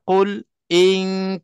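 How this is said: There is a brief stop after qul. "ada saktah"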